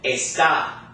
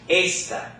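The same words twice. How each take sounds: First: The stress is on the second syllable. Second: The stress is on the first syllable. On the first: "on the word in our vocabulary list, we're pronouncing it" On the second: "there's no accent"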